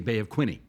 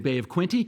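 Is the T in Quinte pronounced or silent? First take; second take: silent; pronounced. First: The T in Quinte is left silent. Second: The T in Quinte is clearly pronounced. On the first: It is said the way the local residents say it. "ingratiate ourselves with the people of Prince Edward County" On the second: It is said the way outsiders from the city say it. "pronounce it like the Torontonians"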